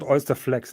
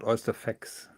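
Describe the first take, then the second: First: The second word has an L sound after F. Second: The second word has no L sound after F. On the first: The speaker calls it right. "It's called Oyster Flex" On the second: The speaker calls it wrong. "not Oyster Fex"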